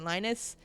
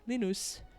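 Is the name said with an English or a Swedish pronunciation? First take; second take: English; Swedish. First: The name is said with an English pronunciation. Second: The name is said with a Swedish pronunciation. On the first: "how we say Linus" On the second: "in Swedish, they call it Linus"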